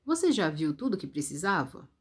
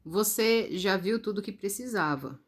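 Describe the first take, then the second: First: "Você já viu tudo que precisava" asked, with the tune lifting on "precisava"; question intonation. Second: "Você já viu tudo que precisava" stated evenly, falling at the end; statement intonation. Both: Shown as a demonstration. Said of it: "Viram a diferença da entonação?".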